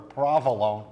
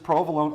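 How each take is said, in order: First: It is said in a New Jersey pronunciation. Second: It is said in a general standard pronunciation.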